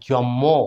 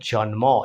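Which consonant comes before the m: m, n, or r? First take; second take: m; n. First: A doubled m sound is in the middle. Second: An n sound comes before the m. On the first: The speaker calls it wrong. "অনেকে বলি জম্ম, ময় ম বলে থাকি" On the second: The speaker calls it right. "সঠিকটা"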